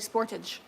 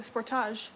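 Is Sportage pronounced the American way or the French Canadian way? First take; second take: American; French Canadian. First: It is pronounced the American way. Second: It is pronounced the French Canadian way. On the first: This is how Americans name the car. "and you guys say Sportage" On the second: This is how Canadians name the car. "We pronounce it French Canadian Sportage. We say Sportage"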